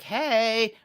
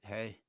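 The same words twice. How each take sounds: First: It is said in a friendly, warm way. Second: It is said in a flat, reluctant way.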